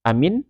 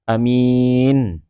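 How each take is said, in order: First: The word is said short, with nothing lengthened. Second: The vowel after the m is drawn out long. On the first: It means safe or made safe. "kalau seandainya dipendekkan" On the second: It means honest. "mimnya dipanjangkan"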